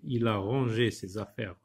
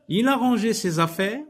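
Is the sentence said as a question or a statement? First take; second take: statement; question. First: It is read with plain statement intonation. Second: It is read with questioning intonation. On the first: It simply gives information. "comme dans la phrase déclarative" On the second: It asks whether this happened. "en changeant ma voix, en mettant de l'intonation"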